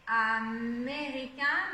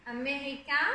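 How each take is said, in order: First: "américain" drawn out slowly on the é; stressed E sound. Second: Said in the usual way. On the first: Shown as a demonstration. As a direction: stretch the é in "américain" to show the E sound. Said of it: "le E". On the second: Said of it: "donc on le souligne".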